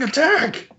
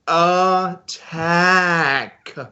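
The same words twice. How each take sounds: First: The word is yelled at a normal pace. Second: The word is yelled louder and more slowly.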